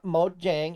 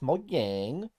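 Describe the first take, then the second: First: The name is said with plain English sounds. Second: The name is said with Swedish-like sounds. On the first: The speaker calls it wrong. "It's not Mojang" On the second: The speaker calls it right. "You say it like you're from Sweden"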